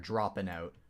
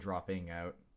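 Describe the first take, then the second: First: Dropping ends with a short 'in' sound. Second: Dropping ends with a full 'ing' sound. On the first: "My accent kind of pops in a little bit there" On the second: "rather than"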